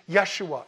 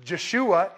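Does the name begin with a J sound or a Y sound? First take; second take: Y sound; J sound. First: The name begins with a Y sound. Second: The name begins with a J sound. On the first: The speaker calls it right. "it's Yeshua" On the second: The speaker calls it wrong. "it's not Yeshua"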